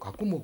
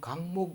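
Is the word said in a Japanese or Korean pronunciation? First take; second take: Japanese; Korean. First: It is said as three syllables, Japanese-style. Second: It is said as two syllables, Korean-style. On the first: The word came from Japanese. "일본 사람은 강목 이래 하라 하면 못합니다. 아무리 가르쳐줘도 가꾸목" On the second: This is the native Korean form. "우리는 강목 이러지만"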